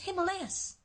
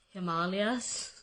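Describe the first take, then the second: First: The word has its American pronunciation. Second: The word has its Indian pronunciation. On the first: This is how other people insist it is said. The speaker calls it wrong. "that's not the way you pronounce it, it's Himalayas" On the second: This is the original form of the word. The speaker calls it right. "it's Himalayas"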